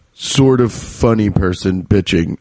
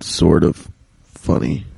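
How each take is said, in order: First: Said in the usual way. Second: Grudging mutter. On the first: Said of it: "No, I'm funny". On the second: Shown as a demonstration. Correcting his own boast to podcast listeners, low grudging mutter. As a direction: lower and softer, grudgingly conceding sort of funny. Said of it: "No, I'm funny. Fuck that".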